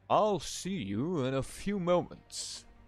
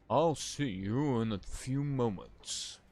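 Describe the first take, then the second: First: The voice is pitched higher, not deepened. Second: The voice is pitched noticeably deeper. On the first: The speaker calls it wrong. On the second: The speaker calls it right.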